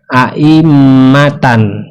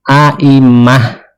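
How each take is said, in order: First: The word ends with a tan sound. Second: The word ends with an h sound. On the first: "seperti ini aimatan" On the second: "dibacanya aimah ya, di dibawa ke hak"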